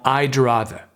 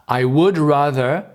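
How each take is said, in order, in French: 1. Le mot would se contracte en d. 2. Le mot would se prononce en entier. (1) "qu'on va transformer en I'd rather"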